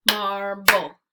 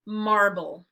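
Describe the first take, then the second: First: Marble broken into mar and ble with a gap; segmented syllables. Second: Said in the usual way. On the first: Shown as a demonstration. Teacher segments for kids: Marble split into mar and ble. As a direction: say Marble as two separate beats, mar then ble. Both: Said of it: "break it into two syllables".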